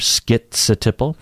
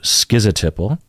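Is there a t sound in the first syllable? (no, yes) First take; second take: yes; no. First: The first syllable is skit, with a t. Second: The first syllable is ski, without a t. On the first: "You hear that T in there" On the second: "ski without a T sound"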